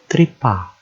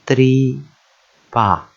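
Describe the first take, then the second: First: Tripa run together as one word, falling at the end; joined syllables. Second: Tripa split into TRI, pause, PA; syllable by syllable. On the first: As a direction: join TRI and PA without a gap. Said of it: "two syllable words". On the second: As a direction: sound out tripa in two slow, separate beats. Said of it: "practice joining two syllables together". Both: Shown as a demonstration.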